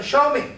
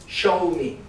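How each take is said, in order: First: "Show me." with SHOW pitched high and punched; stress on show. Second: "show me." said evenly, no extra push; just state "show me." plainly; plain magic word. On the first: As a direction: hit "Show" hard and high. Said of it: "We ask the person". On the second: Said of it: "we have a magic word". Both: Shown as a demonstration.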